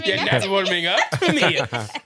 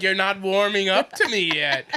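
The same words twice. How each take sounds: First: Laughing mock wicked witch. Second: A hint of a creepy dancer, half laughing; mild retelling of her line; lightly voiced dancer. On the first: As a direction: cackle it like a hammy witch. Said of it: "She said it like a wicked witch like that". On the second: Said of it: "She said it like a wicked witch".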